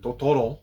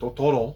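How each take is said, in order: First: It is said with a French accent. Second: The same.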